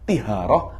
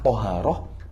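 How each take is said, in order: First: The first vowel is an i sound. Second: The first vowel is an a sound. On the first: The speaker calls it wrong. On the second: The speaker calls it right.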